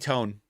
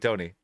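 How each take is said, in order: First: The word ends on the n, with no vowel. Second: The word ends with an extra vowel after the n. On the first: "the last one is spelled T O N E, and that's tone" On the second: "it has a little accent on the on the E, so maybe it's"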